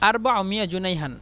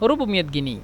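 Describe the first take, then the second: First: It is said in standard Arabic pronunciation. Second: It is said in Egyptian dialect pronunciation. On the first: "আরবি শুদ্ধ ভাষা হলো" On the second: "আঞ্চলিক ভাষা হলো রুবু মিয়াত গিনি"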